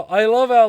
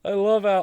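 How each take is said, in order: First: Much louder, higher restart. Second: Said in the usual way. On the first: Real, not acted. Ranting about journalists, rising to a shout. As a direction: shout it over yourself. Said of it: "repeated louder". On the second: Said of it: "repeated outburst".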